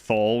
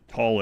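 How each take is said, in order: First: The syllable begins with a 'th' sound. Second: The syllable begins with a plain 't' sound. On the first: "I pronounced it Thal when I was uh up through like middle school" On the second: "I started hearing scientists pronounce it tall every time"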